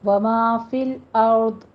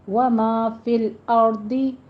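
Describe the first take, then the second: First: The last word ends on a stopped consonant. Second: The last word ends with a short vowel. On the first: The recitation stops at this word. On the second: The recitation continues without stopping.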